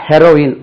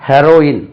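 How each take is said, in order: Both takes have the same delivery.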